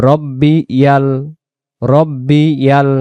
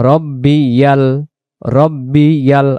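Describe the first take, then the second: The two takes are said the same way.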